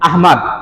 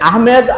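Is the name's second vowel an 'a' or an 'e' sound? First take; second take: a; e. First: The second syllable has an 'a' vowel. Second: The second syllable has an 'e' vowel. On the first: The speaker calls it right. "আহমাদই রাখা" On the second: The speaker calls it wrong. "আহমেদ ভুল"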